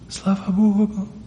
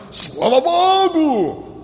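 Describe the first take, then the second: First: It is said very quietly, barely audible. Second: It is said loudly and proudly.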